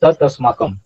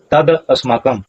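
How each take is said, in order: First: तत् अस्माकं with a crisp final t; तत् अस्माकं with a sharp t, the correct way; correct pronunciation. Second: तद अस्माकं with a d sound, shown as the mistake; wrong pronunciation. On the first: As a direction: say तत् अस्माकं with a hard t, tat asmakam. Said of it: "उच्चारण होगा". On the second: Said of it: "ऐसा उच्चारण नहीं होगा". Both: Shown as a demonstration.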